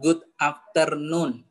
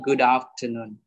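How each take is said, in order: First: The two words are said apart, not linked. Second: The final d runs straight into afternoon. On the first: The speaker calls it wrong. "jangan kita bilang good afternoon ... tidak lancar" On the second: The speaker calls it right. "jadinya good afternoon"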